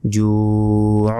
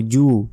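First: জু held long, closed with a pharyngeal squeeze; slow জু ending in ain; throaty ain ending. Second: জু as a short open "ju"; no throat sound after জু; plain, unfinished vowel on জু; wrong bare ending. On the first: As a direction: draw out "juu" into the throat. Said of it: "শেষে আবার আইনের উচ্চারণ হবে". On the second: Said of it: "ভুল হবে". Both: Shown as a demonstration.

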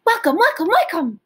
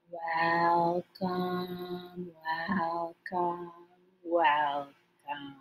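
First: Quick high loud welcomes; as fast as we can. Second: Slow drawn-out welcomes, lower and much softer; as slow as we can. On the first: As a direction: rattle them off fast and loud. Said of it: "fast as we can". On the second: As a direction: stretch each one out slowly. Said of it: "as slow as we can". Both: Shown as a demonstration.

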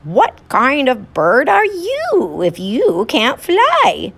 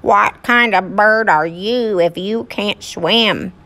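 First: High, slow teasing little bird. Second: Quacking duck voice, slow; squeaky rubber duck. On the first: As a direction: taunt like a cheeky bird. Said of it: "said to the duck". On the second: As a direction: quack it back at the bird. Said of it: "the duck quacked back". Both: Acted.

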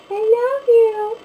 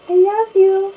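First: Slow sing-song pet talk, pitched way up; stretched cooing to the cat. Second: Cooing to the cat. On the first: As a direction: stretch each word sweetly up high for the cat. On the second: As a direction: squeal it up high at the cat. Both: Real, not acted. Talking sweetly to her cat.

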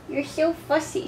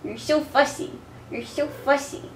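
First: A bit higher soft coo. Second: Soft cooing. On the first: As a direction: coo it teasingly to the cat. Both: Real, not acted. Cooing to the cat.

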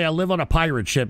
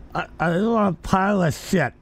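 First: Said in the usual way. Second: "I live on a pirate ship" blurred, tongue held out; holding tongue with fingers. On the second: Shown as a demonstration. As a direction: say "pirate ship" while pinching your tongue. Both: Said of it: "hold your tongue right now and say".

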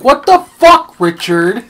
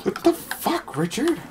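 First: High, loud shout from a video; imitated outraged yell. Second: High, hushed mock disbelief; soft echoed quote. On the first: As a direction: yell at Richard in mock outrage. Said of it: "and the guy's like". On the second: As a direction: repeat the outrage small and squeaky. Echoes the quote more softly.

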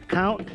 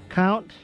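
No difference in how they are said.

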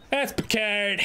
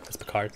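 First: Higher put-on accented pronunciation; playful accented "Picard"; mock accent. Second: Said in the usual way. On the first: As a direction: say "Picard" with a flattened foreign vowel. Repeats it in character voice.

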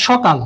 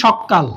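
First: Said in the usual way. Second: সকাল said as sokkal with a held double k; জোর দিয়ে সকাল, ক দ্বিত্ব করে; doubled k. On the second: Shown as a demonstration. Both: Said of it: "আমরা বলি সকাল".

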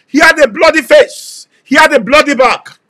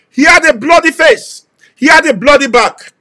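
Both takes have the same delivery.

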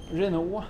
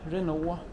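The two takes are said the same way.

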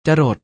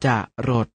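First: Said in the usual way. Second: จะรด split into จะ and รด; short จะ, clear gap, then รด; syllable by syllable. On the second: Shown as a demonstration. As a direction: sound out จะรด in two beats. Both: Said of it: "อ่านว่า".

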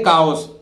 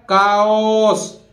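First: Said in the usual way. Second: "काओस" very slow, k sound, ch not said; slow model of "काओस"; careful pronunciation. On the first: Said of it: "उसको क्या बोलते हैं?". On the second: Shown as a demonstration. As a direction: spell out "काओस" slowly for the class. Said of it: "तो कैसे बोलेगा?".

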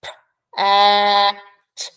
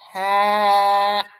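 First: "P, a, t" said as separate drawn-out sounds; "P, a, t" sounded one at a time; stretched sounds. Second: Said in the usual way. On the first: Shown as a demonstration. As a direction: pull each sound apart. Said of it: "Now let's stretch it". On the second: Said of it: "Do you hear the word?".

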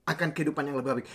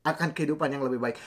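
No difference in how they are said.

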